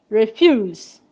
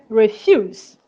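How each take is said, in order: No difference in how they are said.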